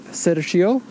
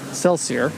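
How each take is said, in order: First: The name is said with Japanese sounds. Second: The name is said with English sounds.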